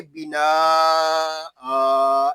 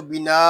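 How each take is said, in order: First: बिना with the final vowel stretched into a long आ; बिना आ, the correct drawn-out reading. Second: बिना said short, without the stretched ending; clipped wrong reading of बिना; बिना cut short, the error to avoid. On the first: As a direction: draw बिना out, holding the आ. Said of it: "ऐसे पढ़ेंगे". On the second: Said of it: "नहीं पढ़ेंगे". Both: Shown as a demonstration.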